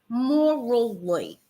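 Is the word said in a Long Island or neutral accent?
neutral. It is said in a neutral accent.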